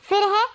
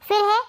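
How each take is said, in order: The two takes are said the same way.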